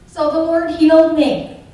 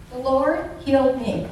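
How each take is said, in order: First: Loud, emphatic declaration; proclaiming. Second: Said in the usual way. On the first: Real, not acted. To the audience, proclaiming her healing loudly. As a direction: proclaim HEALED with force. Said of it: "testimony proclamation". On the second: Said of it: "testimony repetition".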